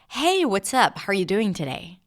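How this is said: The greeting sounds friendly, with lively varied pitch. The speaker calls it right. "the first one sounds a little more friendly because I used my voice differently in my pitch"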